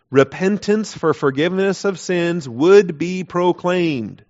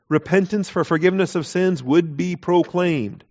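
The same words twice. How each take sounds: First: Slow reading. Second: Said in the usual way. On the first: Shown as a demonstration. Reading the verse aloud slowly.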